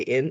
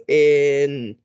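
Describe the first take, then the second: First: Said in the usual way. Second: "in" drawn right out; slow stretched word. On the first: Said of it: "Say in". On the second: Shown as a demonstration. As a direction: stretch each sound of "in" slowly. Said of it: "say it slow to me".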